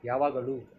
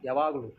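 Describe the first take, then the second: First: The vowels, including the final lu, are long. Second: It is said in a casual, reduced slang form. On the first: "లు కూడా దీర్ఘమే" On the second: "ఇలా కూడా చెప్తారు slang పరంగా"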